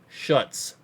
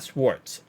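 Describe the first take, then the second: First: The name is said without w or r sounds. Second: The name is said with a w and r sound. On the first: The speaker calls it right. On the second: The speaker calls it wrong. "Not Schwartz"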